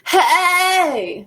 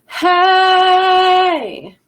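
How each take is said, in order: First: The voice sounds tight and squeezed. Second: The voice sounds open, free and easy.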